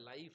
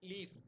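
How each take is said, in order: First: The vowel sounds like 'eye'. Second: The vowel sounds like 'ee'. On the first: This is the modern pronunciation. "Modern அ இங்கிலீஷ்ல அத லைஃப் அப்படின்னு pronounce பண்றாங்க" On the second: This is the older pronunciation. "சில இடத்துல லீஃப் அப்படின்னு pronounce பண்ணாங்க"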